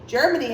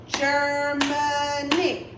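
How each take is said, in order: First: Said in the usual way. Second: "Germany" very slow in three beats, Ger-ma-ny; slow, even, sing-song split of "Germany"; clapped-out syllables. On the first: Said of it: "Germany has three syllables". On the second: Shown as a demonstration. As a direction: stretch out each syllable of "Germany". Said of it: "we clapped for our syllables".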